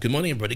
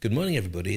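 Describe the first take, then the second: First: It is said in a hyped-up, crowd-rousing way. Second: It is said in a calm, formal way.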